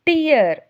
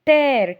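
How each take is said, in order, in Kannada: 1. ಸ್ವರ 'ear' ಪದದ ತರ ಕೇಳಿಸುತ್ತೆ. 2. ಸ್ವರ 'air' ಪದದ ತರ ಕೇಳಿಸುತ್ತೆ. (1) "ಕಣ್ಣೀರಿಗೆ ಟಿಯರ್ ಅಂತ ಕರಿತೇವೆ" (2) "ಟೇರ್ ಅಂದರೆ ಪೇಜ್ ಹರಿಯೋದು"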